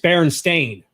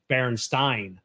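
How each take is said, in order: First: The last syllable sounds like 'stain'. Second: The last syllable sounds like 'stein'. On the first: "It's Berenstain. S T A I N" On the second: "people sa- swore it was S T E I N"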